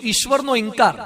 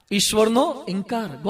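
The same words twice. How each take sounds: First: Said in the usual way. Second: "ઈશ્વરનો", pause, "ઇનકાર", softer; drawn-out, quiet "ઈશ્વરનો ઇનકાર"; slow repeat. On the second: Shown as a demonstration. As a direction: repeat the title slowly and more softly. Title repeated slowly for effect.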